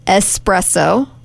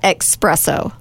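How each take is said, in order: First: The word begins with an 's' sound. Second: The word begins with a 'ks' sound. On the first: The speaker calls it right. "It's E-S-P-R-E-S-S-O" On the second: The speaker calls it wrong. "Not expresso"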